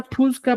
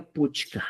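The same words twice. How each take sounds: First: "pusca" with s before k; variant pronunciation. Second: "puchca" with ch before k; correct pronunciation. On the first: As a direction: say "pusca" as pus-ka. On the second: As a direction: say "puchca" as puch-ka. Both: Shown as a demonstration. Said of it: "tu correcto sería puchca".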